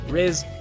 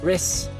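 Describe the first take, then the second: First: The name ends with a buzzing z sound. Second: The name ends with a hissing s sound. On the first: "I say more Z sound" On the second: "which Riss I'm fine with"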